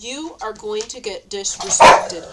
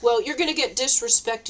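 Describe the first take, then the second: First: Every word of "You are going to get disrespected" spelled out loud and slow; louder, slow, deliberate "going to get disrespected"; emphatic slow declaration. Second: Said in the usual way. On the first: Real, not acted. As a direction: lean hard on each word, loud and slow. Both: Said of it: "you know what?".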